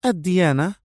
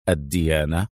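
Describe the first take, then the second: First: الديانة high, with a questioning rise; puzzled question. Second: الديانة said low, as one item in a list; serious list item. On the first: Mona queries Adham's order, الديانة high and puzzled. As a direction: echo الديانة back as a high, frowning question. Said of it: "قطبت منى حاجبيها وسألته". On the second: Adham lists details he wants, الديانة low and serious. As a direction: say الديانة gravely, pitched well down. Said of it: "قال أدهم بجدية". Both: A narrator's reading.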